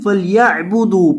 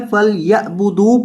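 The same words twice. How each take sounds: First: فلیعبدوا with a clear throaty ain; correct ain. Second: فلیعبدوا with the ain said wrongly, as weak students do. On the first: Teacher showing the correct reading, clear ain. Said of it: "پڑھیں گے". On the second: Teacher imitating a student's mistake, mispronounced ain. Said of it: "اکثر طلبہ عین کو غلط پڑھتے ہیں". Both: Shown as a demonstration.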